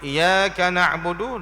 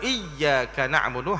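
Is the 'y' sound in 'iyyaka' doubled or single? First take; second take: single; doubled. First: The 'y' sound is single and short. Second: The 'y' sound is doubled and held. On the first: It is the sunlight that we worship. The speaker calls it wrong. "kalau kita tak baca dengan sabdu" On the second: Only you, O God, do we worship. The speaker calls it right. "hanya kepada engkau ya Allah kami sembah"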